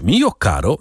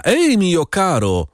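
First: Said in the usual way. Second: Przeciągłe, wyższe wołanie do woźnicy; zawołaj powoli i wysoko, bez pełnego krzyku. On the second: A narrator's reading. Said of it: "krzyknął do pocztyliona". (przeciągły okrzyk przywołujący)

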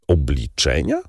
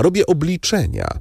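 First: Obliczenia asked back with a rising question tune; one-word echo question, Obliczenia rising; puzzled echo. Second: Robię obliczenia said flatly with a falling close; Robię obliczenia stated as fact, voice falling at the end; plain falling statement, Robię obliczenia; firm statement. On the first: Albert echoes in question. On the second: Debray states his pursuit. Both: Acted.

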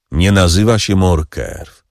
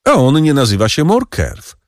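First: Musing count. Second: High voice pressing the point on A; a higher-voiced, pointed reveal of the secret; triumphant Danglars. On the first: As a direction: echo it slowly, weighing each word. Count slowly repeats, musing. (powoli, w zadumie, z naciskiem na nazywa) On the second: (triumfalnie, wyżej, z naciskiem na A) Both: A narrator's reading.

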